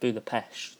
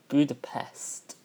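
First: It is said the local Hungarian way. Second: It is said the usual English way. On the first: "the locals call it Budapest" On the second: "which is actually the correct English version"

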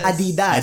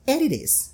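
First: It is said with a Filipino accent. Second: It is said with a New Zealand accent.

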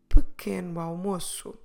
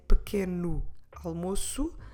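First: The two words run together like one word. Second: The two words are said separately with a break.

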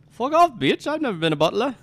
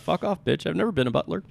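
First: It is said in a put-on British accent. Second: It is said in the speaker's own accent.

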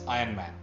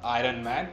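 First: The R in 'Iron' is silent. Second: The R in 'Iron' is pronounced. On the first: The speaker calls it right. "You don't pronounce the R" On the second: The speaker calls it wrong. "it's not Iron Man"

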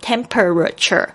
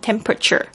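First: Every syllable, including the middle one, is pronounced clearly. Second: The middle syllable is dropped, leaving only an r. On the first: The speaker calls it wrong. "每个字要发得很清楚，就会变成temperature" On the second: The speaker calls it right. "后面这个er 呢的声音呢没有发er 的声音，而是发这个直接就发r 的声音了"

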